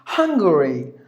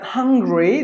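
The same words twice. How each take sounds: First: "Hungary" as HUNG-guh-ree; careful three-syllable "Hungary"; country name. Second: "Hungary" as HUNG-gree, like hungry; wrong two-syllable version. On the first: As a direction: say "Hungary" with the middle guh sounded. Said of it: "the last word is the country name". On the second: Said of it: "it's not like". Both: Shown as a demonstration.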